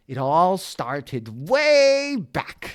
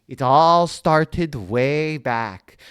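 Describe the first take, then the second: First: Said in the usual way. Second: Slow, louder stuffed-up storyteller voice; bees-in-nose voice. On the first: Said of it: "I don't wanna do that". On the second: Shown as a demonstration. Onceler starting his story, slow and louder with bees in his nose. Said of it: "he's talking like this the whole time 'cause he's got bees in his nose".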